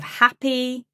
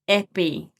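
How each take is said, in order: First: The first vowel is an open a sound. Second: The first vowel is a closer e sound. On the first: The speaker calls it right. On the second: The speaker calls it wrong.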